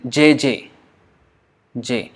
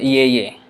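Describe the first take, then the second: First: The syllable begins with a 'j' sound. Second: The syllable begins with a 'y' sound. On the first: The speaker calls it right. "you say j j j" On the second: The speaker calls it wrong. "Bengali would never say ye ye"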